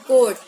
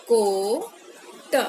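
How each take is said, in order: First: Loud crisp repeat. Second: Drawn-out reading. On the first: Teacher giving children the word coat, loudly. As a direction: say coat short and much louder. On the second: Teacher modelling coat for children, very slowly. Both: Shown as a demonstration.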